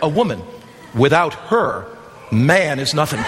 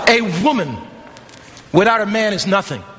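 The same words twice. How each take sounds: First: It has pauses after woman and her. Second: It is said straight through without pauses.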